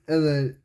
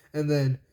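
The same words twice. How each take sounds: The two takes are said the same way.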